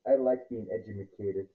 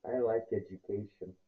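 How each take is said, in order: First: Edumacated said as ed-u-ma-ca-ted; playful edumacated with an extra syllable; jokey mispronunciation. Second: Said in the usual way. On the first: Shown as a demonstration.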